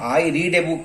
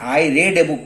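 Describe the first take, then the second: First: The word read has a long 'ee' vowel. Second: The word read has a short 'e' vowel. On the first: The reading happens regularly now. "मैं एक किताब पढ़ता हूँ" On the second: The reading happened in the past. "केवल उच्चारण में फर्क होता है"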